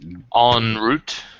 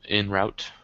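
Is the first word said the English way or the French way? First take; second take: French; English. First: The first word has a French nasal vowel. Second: The first word sounds like English 'in'. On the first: "say it in the French way" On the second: "instead of in route"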